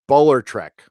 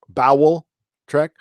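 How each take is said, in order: First: The first word sounds like bowler. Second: The first word sounds like bowel. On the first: The speaker calls it right. "like bowler hat. So bowler trek" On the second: The speaker calls it wrong. "I've been saying it wrong this whole time"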